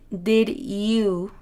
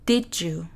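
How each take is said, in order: First: The two words are said separately. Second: The two words are joined together. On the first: "No dije" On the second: "Lo que dije es did you. Utilicé prácticamente este sonido"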